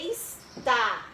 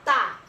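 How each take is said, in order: First: The word is said in full, with both syllables. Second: The word is said short, without its first syllable. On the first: It is the correct full form. "A tá é está" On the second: It is casual everyday speech. "ela está pela metade"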